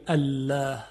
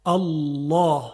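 First: الله with a light, thin lam and front a; wrong thin lam. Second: الله with a thick, emphatic lam and open a; heavy lam. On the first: Teacher demonstrates how not to say الله. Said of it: "یعنی ما نمیگیم الله". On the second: Teacher demonstrates the correct heavy lam in الله. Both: Shown as a demonstration.

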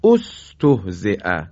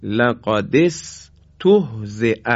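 First: استهزئ said slowly, opening with a clear o sound as "ostohze"; start with damma. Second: لقد استهزئ said very slowly, with استهزئ joined to لقد; joined reading. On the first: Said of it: "بایستی با ضمه آغاز کنیم". (استهزئ را با ضمه در ابتدا بخوانید) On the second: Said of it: "یا کلمهٔ". (لقد استهزئ را آهسته و پیوسته بخوانید) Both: Shown as a demonstration.

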